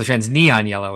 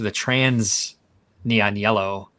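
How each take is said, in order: First: The word neon is strongly stressed. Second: The word neon carries no special stress. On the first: The speaker calls it right. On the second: The speaker calls it wrong.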